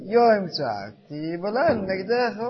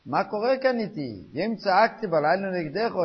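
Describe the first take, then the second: First: Slow, drawn-out declaration with raised voice; said contentedly, as statement. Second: Raised, higher voice of protest; crying out. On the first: Rabbi showing how people now say the verse complacently, drawn-out statement. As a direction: stretch it out as a settled fact. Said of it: "אומרים את זה בנחוסי". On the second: Man protesting to God the next morning, crying out. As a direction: cry it out as an indignant question. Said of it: "אז למחרת הוא מגיע וצועק". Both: Acted.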